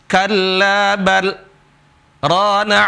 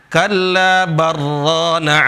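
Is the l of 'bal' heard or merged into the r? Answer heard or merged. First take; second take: heard; merged. First: The l is kept, with a short stop before rana. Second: The l merges into a doubled r sound. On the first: The speaker calls it right. "seperti itu" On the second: The speaker calls it wrong. "nggak boleh baca kalla barrana ala barra idgham"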